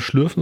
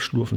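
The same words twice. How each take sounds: First: Schlürfen with a rounded front ü. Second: Schlurfen with a back u, not ü. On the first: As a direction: say Schlürfen with a clear ü sound. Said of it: "nicht nur das Schlürfen". (Schlürfen mit deutlichem ü) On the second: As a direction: say Schlurfen with a plain u sound. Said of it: "sondern das Schlurfen". (Schlurfen mit dunklem u statt ü) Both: Shown as a demonstration.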